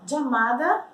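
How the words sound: The first sound is like English j. "como se a gente falasse jeans"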